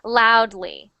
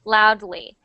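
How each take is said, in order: Both takes have the same delivery.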